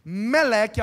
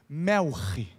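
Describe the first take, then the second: First: The middle consonant is a plain k sound. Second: The middle consonant is a throaty guttural sound. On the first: This is the Portuguese form of the name. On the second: This is the Hebrew pronunciation of the name.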